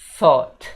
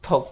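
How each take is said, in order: First: It begins with a soft th sound. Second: It begins with a hard t sound. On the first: The speaker calls it right. "pakai sa yang digigit lidah itu sa dan pengucapannya thought" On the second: The speaker calls it wrong. "bukan bilang talk talk gitu ya guys"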